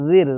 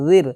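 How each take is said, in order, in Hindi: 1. र की आवाज़ हल्की और पतली है। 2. र की आवाज़ हल्की और पतली है।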